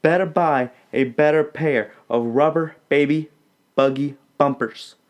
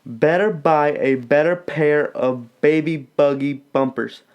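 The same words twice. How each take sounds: First: Put-on "Better buy a better pair of rubber baby buggy bumpers" said carefully; the fixed version, every b crisp; corrected twister. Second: Put-on "Better buy a better pair of baby buggy bumpers" with a word dropped; a rushed, flubbed take; the botched first try; fumbled twister. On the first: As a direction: clean second take. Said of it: "Let me say it one more time". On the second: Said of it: "Actually, I messed that up". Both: Shown as a demonstration.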